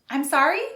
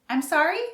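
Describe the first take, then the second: No difference in how they are said.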